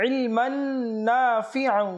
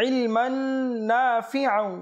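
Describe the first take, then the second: No difference in how they are said.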